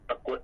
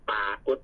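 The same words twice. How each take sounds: First: ปรากฏ with a brief "a" in the first syllable; short first vowel. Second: ปรากฏ with a held "aa" in the first syllable; long first vowel. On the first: Teacher explains the sound shift, short vowel in ปรากฏ. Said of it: "งสั่น". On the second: Teacher explains the sound shift, long vowel in ปรากฏ. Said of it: "เพี้ยนจาก". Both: Shown as a demonstration.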